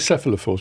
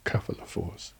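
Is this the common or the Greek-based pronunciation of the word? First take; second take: common; Greek-based. First: The word is said the common, popular way. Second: The word is said the Greek-based way. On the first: This is how many people usually say it. The speaker calls it wrong. "Some people say cephalophores" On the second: This follows the word's Greek origin. The speaker calls it right. "more properly because it's from a Greek. It should really be cephalophores"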